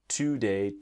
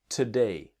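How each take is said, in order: First: The first syllable has a full, strong vowel. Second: The first syllable has a soft, reduced vowel. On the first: The speaker calls it wrong. "It's not today" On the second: The speaker calls it right. "Can you hear that it's soft?"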